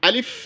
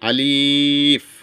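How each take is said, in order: First: The word is said quickly without stretching. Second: The vowel is stretched out long. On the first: The speaker calls it right. "কোনো টান হবে না। আলিফ হরফটা দ্রুত আদায় হবে" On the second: The speaker calls it wrong. "অনেকে আমরা এই আলিফ শব্দ আলিফ হরফটা এভাবে আদায় করে থাকি"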